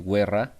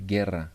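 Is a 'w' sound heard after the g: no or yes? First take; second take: yes; no. First: A 'w' sound is heard after the g. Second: No 'w' sound is heard after the g. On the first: The speaker calls it wrong. "we don't say guerra" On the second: The speaker calls it right. "we say guerra"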